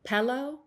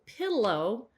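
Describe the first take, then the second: First: The first vowel sounds like eh. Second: The first vowel sounds like ih. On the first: "This is more of an accent uh, term" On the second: "What we are trying to say as Northwesterners is"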